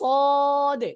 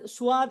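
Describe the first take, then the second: First: The s goes straight into the vowel, unrounded. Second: The s is followed by a rounded w glide. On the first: The speaker calls it right. "পেট ও আগার সঙ্গে মিলিয়ে বলবো সদ" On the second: The speaker calls it wrong. "যে সোয়াদ সোয়াদ এরকম বলা যাবে না"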